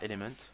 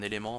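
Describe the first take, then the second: First: The word is pronounced the English way. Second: The word is pronounced the French way. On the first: "nous on le prononce en anglais" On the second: "un élément en français"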